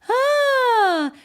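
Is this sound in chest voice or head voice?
head voice. It is a higher, lighter head-voice sound. "into your head voice"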